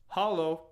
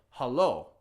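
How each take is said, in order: First: "Halo" with stress on the first syllable, HA-lo; wrong stress demo. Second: "hello" with stress on the second syllable, ha-LO; right stress demo. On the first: Teacher shows learners the wrong way, stressing HA. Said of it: "you wouldn't say it". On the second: Teacher shows learners the right way, stressing LO. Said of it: "You'd say hello". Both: Shown as a demonstration.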